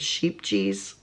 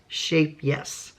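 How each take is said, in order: First: It sounds like 'sheep cheese'. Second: It sounds like 'shape yes'. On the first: The speaker calls it wrong. "some of us pronounce it sheep cheese" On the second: The speaker calls it right. "It's actually pronounced shape yes"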